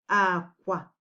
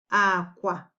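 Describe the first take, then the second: Both takes have the same delivery.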